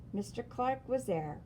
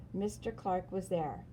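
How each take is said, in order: Both takes have the same delivery.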